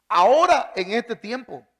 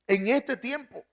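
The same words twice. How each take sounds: First: Ahora punched high and loud, then a long falling ahora en este tiempo; stress on ahora. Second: En este tiempo repeated with este lifted and falling; stress on este. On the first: Preacher stressing the promise to the congregation, ahora en este tiempo loud. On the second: Preacher repeating the phrase for the congregation, este stressed. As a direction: echo En este tiempo, hitting este. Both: Acted.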